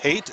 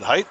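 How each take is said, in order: First: The vowel sounds like 'ay', rhyming with hate. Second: The vowel sounds like 'eye', rhyming with height. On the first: The speaker calls it right. "but it is pronounced hate" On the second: The speaker calls it wrong. "I've been pronouncing it height"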